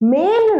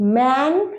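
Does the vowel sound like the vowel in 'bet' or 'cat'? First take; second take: bet; cat. First: The vowel is like the one in bet. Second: The vowel is like the one in cat. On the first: The speaker calls it wrong. "মেন নয়" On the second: The speaker calls it right. "Pronunciation ইজ অ্যা"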